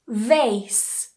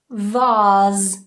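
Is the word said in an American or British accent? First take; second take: American; British. First: American accent, with an ay vowel. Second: British accent, with a long open ah vowel. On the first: "In the U S, vase" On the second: "In the U K, vase. So it's a long R"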